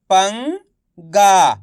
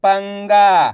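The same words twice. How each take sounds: First: "पंगा" split slowly, loud, pause before गा; syllable by syllable. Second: "पंगा" loud, blended into one word; syllables joined. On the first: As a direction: sound out "पंगा" as पं, then गा. ("पंगा" को तोड़कर, धीरे-धीरे) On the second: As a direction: say "पंगा" whole, without the pause. ("पंगा" मिलाकर एक शब्द में) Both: Shown as a demonstration. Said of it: "तो मिलके बन जाएगा".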